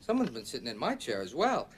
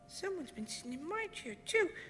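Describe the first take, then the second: First: It is said in a medium-sized voice. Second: It is said in a wee small voice.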